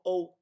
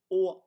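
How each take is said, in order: First: High "o" gliding like English "oh". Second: High, held "o", close to "aw"; Swedish-style o. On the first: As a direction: finish "o" closing toward oo. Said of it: "it's pronounced O". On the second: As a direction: keep "o" one open Swedish vowel. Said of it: "just the letter o in". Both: Shown as a demonstration.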